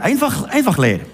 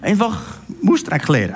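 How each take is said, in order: First: Said in the usual way. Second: Swiss German dialect. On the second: Shown as a demonstration. Preacher first gives the Swiss German words, Swiss German accent. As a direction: say "Mustreck leer" in broad Swiss German dialect. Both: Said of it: "Kann man das auch hochdeutsch sagen?".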